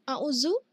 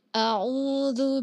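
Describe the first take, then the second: First: The middle consonant is a plain z sound. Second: The middle consonant is a voiced th sound. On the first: The speaker calls it wrong. "atau a'uzu" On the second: The speaker calls it right. "ujung lidahnya menempel dua gigi sari atas sedikit ya"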